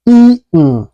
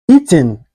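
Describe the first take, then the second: First: EATEN with a stop for the T, "ee'n"; swallowed T. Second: EATEN with a clear T, "ee-tin"; T fully pronounced. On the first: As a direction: say "eaten" American style, swallowing the T. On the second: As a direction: say "eaten" with an audible T. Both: Shown as a demonstration. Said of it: "is pronounced like".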